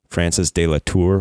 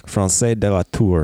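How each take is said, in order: First: The name is said in a plain English accent. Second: The name is said in a French accent.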